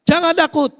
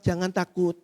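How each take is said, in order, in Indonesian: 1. Diucapkan dengan nada marah. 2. Diucapkan dengan nada lembut dan pelan. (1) "dengan intonasi marah" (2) "dengan pelan, ... dengan suara lembut"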